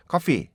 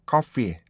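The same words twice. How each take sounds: First: "coffee" with the final "ee" cut short; mistaken clipped ending. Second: "coffee" with the short final "ee" lengthened; correct long ending. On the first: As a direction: chop "coffee" off abruptly. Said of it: "확 잘라지지는 않아요". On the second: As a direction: let the last vowel of "coffee" run on. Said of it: "coffee 이렇게". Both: Shown as a demonstration.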